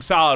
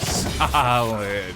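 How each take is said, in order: First: The word is said short and plain. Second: The word is drawn out with a rocking tune. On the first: "oh, something solid" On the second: "There's more uh, um, syllables going on. There's a little more rocking with it"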